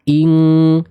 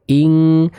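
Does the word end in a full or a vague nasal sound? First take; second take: full; full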